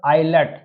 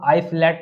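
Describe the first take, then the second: First: The word is said without an s sound. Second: The word is said with an s sound. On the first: The speaker calls it right. "और यहाँ पर आइलैट" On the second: The speaker calls it wrong. "तो बहुत से लोग आइसलैट भी पढ़ते हैं"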